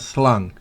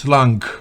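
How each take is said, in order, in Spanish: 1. El sonido final de la g apenas se oye. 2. El sonido final de la g se pronuncia claramente. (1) "esa G no se pronuncia destacadamente, es apenas slung" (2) "No es slung"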